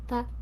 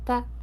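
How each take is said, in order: First: The voice sounds bright and high. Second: The voice sounds bright and high.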